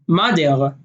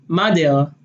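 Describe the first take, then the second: Both takes have the same delivery.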